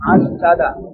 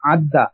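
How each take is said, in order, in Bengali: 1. দুটি d ধ্বনি একটি স্বরধ্বনি দিয়ে আলাদা থাকে। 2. দুটি d ধ্বনি মিশে একটি লম্বা d হয়ে যায়। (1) "দুটো দত ছিল মূলত" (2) "এক জাতীয় দুটি হরফ একত্রে মিলিয়ে পড়াকে"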